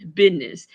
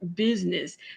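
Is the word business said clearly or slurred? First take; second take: slurred; clear. First: The word is slurred and poorly enunciated. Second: The word is clearly and carefully enunciated. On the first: Someone else says it this way. The speaker calls it wrong. "this is what he's saying" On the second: This is the speaker's own normal way. The speaker calls it right. "in a regular manner, I speak and say the word"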